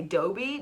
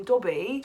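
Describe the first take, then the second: First: Dobby with a long o, toʊbi; American Dobby. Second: Dobby with a short rounded o, tɔbi; British Dobby. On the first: Tries Dobby the American way, unsure which is right. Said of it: "So do I say Dobby?". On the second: Says Dobby the British way, doubting her American accent. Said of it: "so I'm not saying Dobby". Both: Shown as a demonstration.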